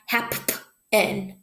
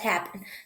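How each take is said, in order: First: The p sound is said twice. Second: The p sound is said once. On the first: The speaker calls it wrong. "It's not happen" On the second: The speaker calls it right. "Just happen. ... it still makes the one p sound"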